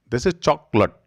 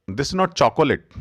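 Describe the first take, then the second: First: "chocolate" in two syllables, chok-lut; correct way. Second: "chocolate" in three syllables, cho-co-late; wrong way. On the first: Teacher gives the right two-syllable chocolate. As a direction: drop the middle o, chok-lut. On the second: Teacher shows the mistaken cho-co-late. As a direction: sound the middle o and end on late. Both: Shown as a demonstration.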